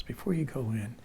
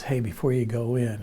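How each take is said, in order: First: Very soft, whispery aside; retold whisper. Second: Said in the usual way. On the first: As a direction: imitate a friend's discreet whisper. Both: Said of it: "whispering a, a little bit now".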